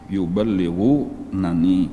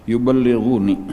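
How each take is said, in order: First: The word has two n syllables, -nuni. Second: The word has a single short n syllable. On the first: The original full form with both nuns. "jadi nunnya tuh dua" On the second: A shortened reading with one nun dropped. "boleh dibaca dihilangkan satu"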